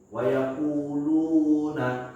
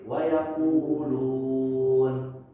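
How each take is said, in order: First: The word ends with a final a vowel. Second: The word ends on a silent final n. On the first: The reader keeps going without stopping. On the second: The reader is stopping at this word.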